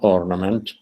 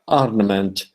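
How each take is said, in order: First: The final vowel is the ordinary everyday one. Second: The final vowel is changed to fit a rhyme. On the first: The speaker calls it wrong. "not ornament" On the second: The speaker calls it right. "so there will be a different vowel"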